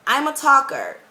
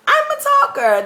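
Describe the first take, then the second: First: Said in the usual way. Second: I'm a talker said much higher and louder, proudly; emphatic declaration. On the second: Real, not acted. Telling new viewers about herself, proud emphatic claim.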